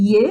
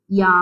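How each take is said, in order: First: Short യ on its own; short sound. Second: യാ with a long open aa; lengthened vowel. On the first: Teacher giving pupils the letter's sound, short യ. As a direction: say യ briefly, with no long vowel. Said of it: "യ എന്ന് പറഞ്ഞ് പഠിക്കാം". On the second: Teacher turning the short sound long for pupils, drawn-out യാ. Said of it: "യനെ യാ ആക്കാൻ". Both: Shown as a demonstration.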